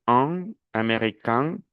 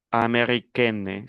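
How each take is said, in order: First: "un american" slowly, with nasal vowels; nasal ending. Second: "americaine" slowly, with a clear n; non-nasal ending. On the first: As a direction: say "un american" through the nose at the end. ("un american" lento, con final nasal) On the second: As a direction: sound the n of "americaine", not nasal. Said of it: "Se pierde la nacionalización". ("americaine" lento, sin nasalizar) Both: Shown as a demonstration.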